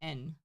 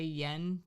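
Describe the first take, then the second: First: The word begins directly with a vowel. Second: The word begins with a y sound. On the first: The speaker calls it right. "They actually say en" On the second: The speaker calls it wrong. "They don't say yen"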